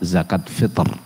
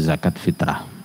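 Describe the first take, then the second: First: The second word ends abruptly on the 'r' sound. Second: The second word ends with an added 'rah' syllable. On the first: This is the original Arabic way of saying it. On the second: This is the common local way of saying it. "biasa kita menyebutnya begitu"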